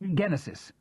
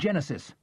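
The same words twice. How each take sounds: First: The word is pronounced a non-English way. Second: The word is pronounced the English way. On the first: The speaker calls it right. "I corrected myself" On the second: The speaker calls it wrong. "I pronounced it the English way"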